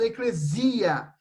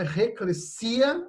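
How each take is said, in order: First: The middle consonant is a buzzing z sound. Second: The middle consonant is a hissing s sound. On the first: The speaker calls it wrong. "eu já vi gente falando eclesia" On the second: The speaker calls it right. "o S ele tem sempre som de S mesmo"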